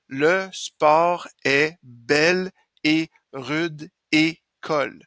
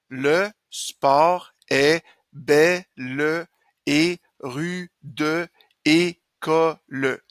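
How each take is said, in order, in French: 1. Les e muets ne sont pas prononcés, ce qui fait huit syllabes. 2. Les e muets sont prononcés, ce qui fait onze syllabes. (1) "j'ai huit syllabes" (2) "j'ai onze syllabes"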